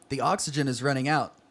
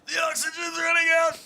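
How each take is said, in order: First: It is said in a plain, ordinary voice. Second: It is said with a breathless, gasping voice.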